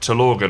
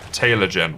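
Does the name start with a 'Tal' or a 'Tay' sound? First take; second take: Tal; Tay. First: The name starts with a 'Tal' sound. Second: The name starts with a 'Tay' sound. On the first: The speaker calls it right. "might be a bit closer" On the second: The speaker calls it wrong. "I was saying your name wrong. I was saying it like Taylor Gen"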